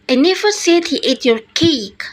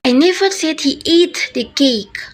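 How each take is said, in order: First: The word cake carries the main stress. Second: The word ate carries the main stress. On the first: He ate something else, not the cake. "By making cake the most threats" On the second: He did something else to the cake, not eat it. "By making it the most threats"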